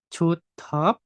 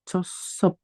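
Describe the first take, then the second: First: The consonant after the first syllable is a T. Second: The consonant after the first syllable is an S. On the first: The speaker calls it wrong. "ini nggak dibaca Chotep" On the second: The speaker calls it right. "tapi Chosep"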